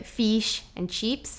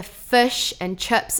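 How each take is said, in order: First: Fish and chips drawn out slowly, with a thin 'ee' I; slow demo of fish and chips with the I drawn thin; Australian thin I. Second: Fish and chips slowly, I almost a U; drawn-out fish and chips with a lazy, u-like I; New Zealand lazy I. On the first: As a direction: stretch fish and chips towards "feesh and cheeps". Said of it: "the I's drawn really thin". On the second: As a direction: say fish and chips like "fush and chups". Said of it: "the I almost becomes a U". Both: Shown as a demonstration.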